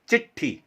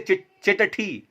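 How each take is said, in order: First: The first syllable is light and flows on. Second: The first syllable is split off and weighted. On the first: The speaker calls it right. "थोड़ा वजन कम रखा जाता है" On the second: The speaker calls it wrong. "ऐसे नहीं बोलेंगे"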